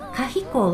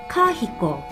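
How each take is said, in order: First: The first syllable is short and unstressed. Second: The first syllable is long and stressed. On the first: It means old. "カヒコは古いっていう意味なんです" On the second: It means lavish decoration. "カハコをつけてそこにアクセントを置くとカヒコと変わります"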